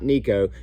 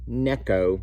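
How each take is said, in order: First: The first vowel sounds like 'ee'. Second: The first vowel sounds like 'eh'. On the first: The speaker calls it wrong. "not Nico" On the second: The speaker calls it right. "it's called Neko"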